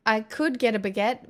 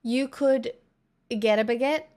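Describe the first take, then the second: First: Could lifted with a rising lean; musing could, rising; stress on could. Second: Said in the usual way. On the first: Shown as a demonstration. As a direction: lean on could, then let it float up.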